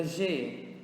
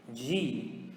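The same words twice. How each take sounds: First: G said as "zheh"; Portuguese letter G. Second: G said as "jee"; English letter G. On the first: Teacher naming the letter in Portuguese first, G as "zheh". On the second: Teacher answering with the English letter, G as "jee". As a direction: say G with a hard "dj" and long "ee". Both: Shown as a demonstration. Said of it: "in English is going to be".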